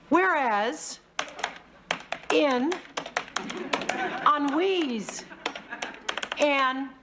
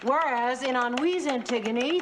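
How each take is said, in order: First: It is read very slowly. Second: It is read very fast.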